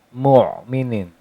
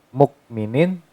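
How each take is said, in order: First: The middle consonant is a deep throat sound. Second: The middle consonant is a k sound. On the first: The speaker calls it right. "kalau menggunakan ain mu'minin" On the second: The speaker calls it wrong. "Kalau pakai kaf mukminin"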